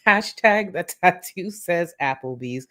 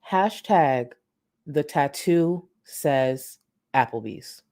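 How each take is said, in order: First: It is said while laughing. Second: It is said with a straight face.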